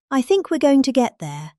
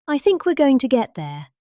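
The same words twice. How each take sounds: The two takes are said the same way.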